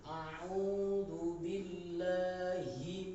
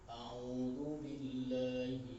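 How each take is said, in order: First: The phrase is recited slowly and deliberately. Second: The phrase is recited at a moderate pace. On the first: "tahqiq itu" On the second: "Masuk tartil agak lebih cepat sedikit"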